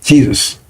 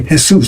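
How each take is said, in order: First: Jesus the English way, jee-zus; English pronunciation. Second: Jesus said as hay-SOOS with an h at the start; Jesus with a Spanish h and oo; Spanish pronunciation. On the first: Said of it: "They won't say Jesus". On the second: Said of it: "they'll say Jesus". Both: Shown as a demonstration.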